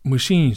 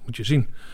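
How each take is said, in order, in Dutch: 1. De klinker in 'zien' is lang. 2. De klinker in 'zien' is kort. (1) "Maar moet je zien, zeggen wij" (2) "in het Hollands zeg je moet je zien. Zien, kort"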